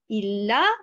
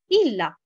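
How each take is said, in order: First: The first syllable is not stressed. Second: The first syllable is stressed. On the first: It is two words meaning if not. The speaker calls it right. "la bonne prononciation, c'est de dire il a" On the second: It is one word meaning except. The speaker calls it wrong. "et non pas il a"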